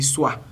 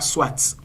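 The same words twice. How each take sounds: First: The final t sound is silent. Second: The final t sound is pronounced. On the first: The speaker calls it right. "on dit soit ... le T final ne se lit pas" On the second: The speaker calls it wrong. "on ne dit pas soit"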